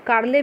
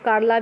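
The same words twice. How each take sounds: First: कार्ले ending in an "e" sound; variant pronunciation. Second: कार्ला ending in an "aa" sound; variant pronunciation. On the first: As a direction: say कार्ले with final -le, not -la. (कार्ले, अंत में "ए" की ध्वनि) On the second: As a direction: say कार्ला with final -la, not -le. (कार्ला, अंत में "आ" की ध्वनि) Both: Shown as a demonstration. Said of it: "pronunciation सही है".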